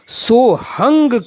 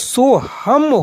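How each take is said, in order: First: The word ends with an 'ng' sound. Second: The word ends with an 'm' sound. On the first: This is how the old saint traditions say it. "वहां सोहंग शब्द का उच्चारण सोहंग किया जाता है" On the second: This is how grammar scholars say it. "व्याकरण के विद्वान बुद्धिजीवी वर्गों में इसका जो उच्चारण होता है वो सोहम होता है"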